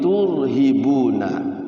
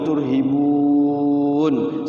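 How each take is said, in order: First: The word ends with a full -na syllable. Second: The word stops on a lengthened vowel before n. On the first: "kalau dibacanya wasol" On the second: "kalau mau wakaf juga"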